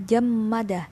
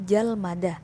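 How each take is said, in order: First: A doubled m follows the first syllable. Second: An l then an m follow the first syllable. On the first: "pengucapannya berat" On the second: "diubah menjadi jalmada"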